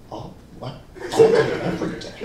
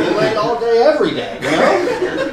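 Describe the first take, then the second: First: Unvoiced mock-baffled whisper; whispered disbelief. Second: Loud, high boast; hammed-up bragging, rising high at the end; put-on bragging. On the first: Friend Alexis questioning the lie from nearby, whispering. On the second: Fake belayer boasting to a parent, loudly.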